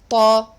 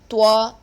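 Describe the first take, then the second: First: The lips stay unrounded on the sound. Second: The lips are rounded forward on the sound. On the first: The speaker calls it right. "It is ta" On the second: The speaker calls it wrong. "When you use your lip or put your lip in the front position, oo, oo position, it becomes twa"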